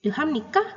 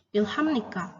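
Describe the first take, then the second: First: "Ilham Nika" lifted at the end as a question; rising question intonation. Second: Said in the usual way. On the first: Shown as a demonstration. Teacher showing how a Korean question sounds, "Ilham Nika" with rising intonation. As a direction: ask "Ilham Nika" with the pitch climbing on Nika. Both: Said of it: "Kalau bertanya kan otomatis intonasinya naik".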